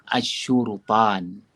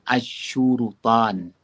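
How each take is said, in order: Both takes have the same delivery.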